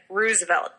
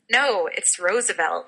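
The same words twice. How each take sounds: First: Roosevelt as "ROO-zuh-velt"; insisted-on pronunciation. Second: Roosevelt as "ROSE-uh-velt", drawn out slowly; correcting pronunciation. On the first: Shown as a demonstration. Podcaster convinced of their own way, Roosevelt with an oo. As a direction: Roosevelt with oo as in "who". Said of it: "that's the way it's actually said". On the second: Retold or imitated. People correcting the speaker, Roosevelt said with a rose vowel. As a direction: Roosevelt with a long o, like the flower rose. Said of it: "everyone tells me".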